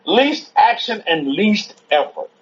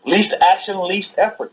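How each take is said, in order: First: "Least action and least effort" slowly, word by word; slow emphasis. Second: Said in the usual way. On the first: Real, not acted. Student repeating "Least action and least effort" from the lecture, slowly emphatic. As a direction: spell out "Least action and least effort" at a measured pace.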